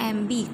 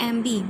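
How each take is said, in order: No difference in how they are said.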